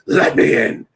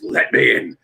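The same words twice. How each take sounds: First: Imitating The Fiend, a creepy breathy whisper. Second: A lightly voiced imitation of The Fiend's catchphrase; creepy Fiend voice. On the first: Host imitating the wrestler's catchphrase for his podcast friends, creepy whisper. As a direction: hiss "Let me in." like a wrestling villain at the door. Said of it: "Oh my God, that is so creepy and cool". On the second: Host repeating the wrestler's catchphrase for his friends, mild creepy voice. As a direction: murmur "Let me in." low and eerie, but only a hint of it. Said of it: "that is so creepy and cool".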